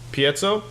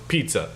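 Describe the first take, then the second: First: The word does not sound like pizza. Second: The word sounds like pizza.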